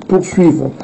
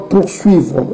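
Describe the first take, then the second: The two takes are said the same way.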